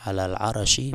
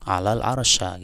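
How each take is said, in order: First: The last word ends with an i vowel. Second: The last word ends with an a vowel. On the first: The speaker calls it right. "bi jarril arsy" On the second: The speaker calls it wrong. "dibaca fathah atau nasab pada al ars"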